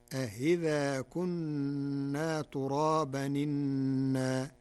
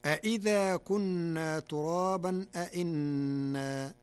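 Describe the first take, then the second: First: أإذا with a softened second hamza, a-hidha, and إنا as a statement; slow Warsh recitation; Warsh reading. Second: أإذا and أإنا with full hamzas; both hamzas fully pronounced in أإذا; standard reading. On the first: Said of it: "تسهيل الهمزة الثانية". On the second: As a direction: recite أإنا with two clear hamzas. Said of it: "قرأ ورش كلمة أإذا". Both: Shown as a demonstration.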